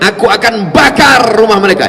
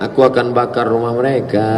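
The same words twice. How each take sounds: First: It is said in an angry tone. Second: It is said in a calm tone.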